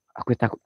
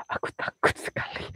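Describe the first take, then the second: First: Said in the usual way. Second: Breathless scared whisper; mock-terrified whisper in the dark; frightened whisper. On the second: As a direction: whisper it like something is behind you. Scared ghost hunter at night.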